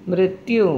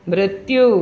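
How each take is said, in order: No difference in how they are said.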